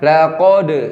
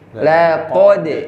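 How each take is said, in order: First: The word is pronounced with a thick, heavy sound. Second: The word is pronounced with a thin, light sound. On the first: The speaker calls it wrong. "Jadi jangan laqad, laqad, nah, tebal" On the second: The speaker calls it right. "nah, tipisin"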